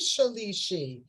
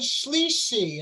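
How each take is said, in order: First: The first vowel is pronounced in full. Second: The first vowel is dropped, shortening the word. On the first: The speaker calls it right. "so it is Shalishi" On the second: The speaker calls it wrong. "you said Shlishi ... it's shortened"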